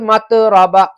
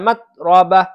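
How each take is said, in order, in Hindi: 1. t को गूँजती हुई उछाल के साथ छोड़ा जाता है। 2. t को बिना उछाल के, सपाट रोका जाता है। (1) "आमतौर से क्या पढ़ते हैं बच्चे, मत रबा, ये गलत है" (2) "तो ऐसा पढ़ना है"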